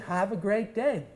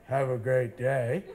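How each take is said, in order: First: It is said in a warm, lively way. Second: It is said in a flat, dull way.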